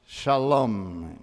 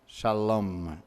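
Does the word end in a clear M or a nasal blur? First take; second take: clear M; clear M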